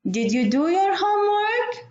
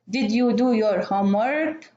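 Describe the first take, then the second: First: It is said with a questioning tune. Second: It is said with a statement tune. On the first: The speaker is asking something. "So you will understand this is a question" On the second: The speaker is stating something, not asking. "So here maybe you will understand this is a statement"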